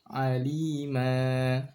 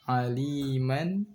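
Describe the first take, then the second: First: The word ends on a lengthened open vowel. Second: The word ends with an n sound. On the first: This is the form read when stopping at a pause. "aliman menjadi alima" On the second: This is the form read in the middle of a verse. "aliman menjadi alima"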